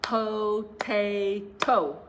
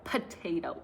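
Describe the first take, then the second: First: Potato broken slowly into three beats, po-ta-to, louder; clapped syllables. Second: Said in the usual way. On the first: Shown as a demonstration. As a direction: beat out Potato syllable by syllable, slow. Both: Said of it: "let's try clapping to a few".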